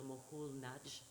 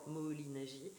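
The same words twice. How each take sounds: First: The name is said with a foreign, non-French pronunciation. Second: The name is said with a French pronunciation. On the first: The speaker calls it right. "il faudrait dire Moholy Nagy, je crois" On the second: The speaker calls it wrong. "je le prononce à la française"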